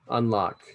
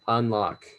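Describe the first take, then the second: No difference in how they are said.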